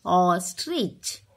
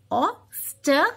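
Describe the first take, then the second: First: Said in the usual way. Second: Ostrich said slowly with long O; slow drawn-out word. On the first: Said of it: "O means ostrich". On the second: Shown as a demonstration. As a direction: stretch ostrich for the class. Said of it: "O says O".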